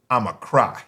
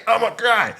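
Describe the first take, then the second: First: Said in the usual way. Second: Put-on higher, babyish take on the line; playing a newborn about to wail; lightly voiced baby announcing tears. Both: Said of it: "like a baby".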